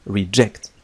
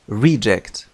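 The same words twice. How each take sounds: First: "reject" as re-JECT, stress on second syllable; the verb: hit JECT in "reject". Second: "Reject" as REE-ject, first syllable loud and falling; the noun: punch RE in "Reject"; noun stress. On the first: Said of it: "فكفعل يعني يرفض". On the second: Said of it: "عندما يستخدم كاسم ينطق reject". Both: Shown as a demonstration.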